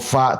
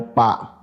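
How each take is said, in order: First: It begins with an f sound. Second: It begins with a p sound. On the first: The speaker calls it right. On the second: The speaker calls it wrong.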